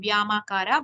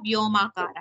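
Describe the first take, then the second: First: The first syllable is said with an a vowel. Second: The first syllable is said with an o vowel. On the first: The speaker calls it wrong. "It's not व्यामाकारा" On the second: The speaker calls it right. "व्यो व्यो"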